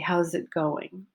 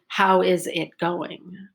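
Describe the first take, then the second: First: 'How is' is contracted into one syllable. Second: 'How is' is said as two full words. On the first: The speaker calls it right. "I say how's it going" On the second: The speaker calls it wrong. "I don't say how is it going"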